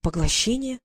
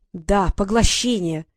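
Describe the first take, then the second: First: Said in the usual way. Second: Slow, louder, insistent "поглощение"; irritated. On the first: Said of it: "question, puzzled echo". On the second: Acted. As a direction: hammer it home, losing patience. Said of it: "Фея всё больше раздражалась". (медленно и громче, раздражённо)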